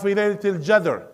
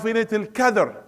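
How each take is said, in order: First: The last word starts with a j sound. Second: The last word starts with a k sound. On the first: "the one from uh, الشارقة, he will say" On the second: "somebody from Al Khalil, from Palestine. He will say"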